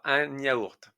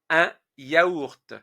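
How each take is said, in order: First: A liaison sound links 'un' to 'yaourt'. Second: The words are said without a liaison sound. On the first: The speaker calls it wrong. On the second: The speaker calls it right.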